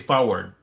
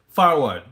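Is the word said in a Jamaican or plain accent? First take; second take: plain; Jamaican. First: The word is said in a plain accent. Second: The word is said in a Jamaican accent. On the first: "they'll say forward" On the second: "but they'll say it like forward"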